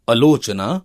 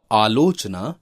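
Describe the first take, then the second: First: आलोचना with short first a; wrong vowel length. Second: आलोचना with long initial aa; correct vowel length. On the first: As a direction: begin आलोचना as 'alochna', short a. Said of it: "अशुद्ध शब्द है". (आलोचना को 'अलोचना' बोलना) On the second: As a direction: open आलोचना on a long 'aa'. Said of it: "शुद्ध है". (आलोचना में लंबा आ) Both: Shown as a demonstration.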